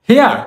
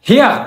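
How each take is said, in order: No difference in how they are said.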